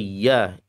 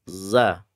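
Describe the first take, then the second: First: The consonant is a y sound. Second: The consonant is a buzzing z sound. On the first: The speaker calls it wrong. "Atau ya ... keliru ya" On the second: The speaker calls it right. "membaca huruf zayyun"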